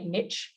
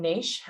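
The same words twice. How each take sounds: First: It is said with an American pronunciation. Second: It is said with an Australian pronunciation. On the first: "Americans say niche" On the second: "as Australians, we say niche"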